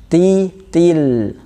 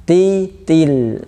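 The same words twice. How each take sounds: No difference in how they are said.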